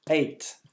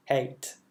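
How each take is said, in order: First: Said in the usual way. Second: Eight said with a smile, spread lips; smiling. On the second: Shown as a demonstration. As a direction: smile while saying Eight. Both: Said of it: "un petit sourire pour dire ça".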